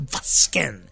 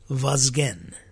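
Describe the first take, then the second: First: The middle consonant is an S sound. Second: The middle consonant is a Z sound. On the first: The speaker calls it wrong. "people feel very, very empowered to change that Z to a S" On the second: The speaker calls it right. "It's spelled with the Z"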